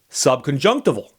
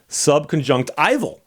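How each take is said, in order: First: The vowel after 'junct' does not sound like 'eye'. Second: The vowel after 'junct' sounds like 'eye'. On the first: "I'm using the second subconjunctival" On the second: "the first pronunciation is subconjunctival"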